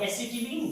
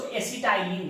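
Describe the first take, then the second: First: एसिटिलीन said e-si-ti-leen with a long ee at the end; acetylene, "-leen" ending. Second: एसिटाइलिन said e-si-tai-lin with a long "tai" diphthong; एसिटाइलिन, the tai-lin way some people read it; acetylene, "-tai-lin" variant. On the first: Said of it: "आप एसिटिलीन कहिए या एसिटाइलिन कहिए". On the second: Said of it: "कुछ लोग इसको एसिटाइलिन भी पढ़ते हैं". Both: Shown as a demonstration.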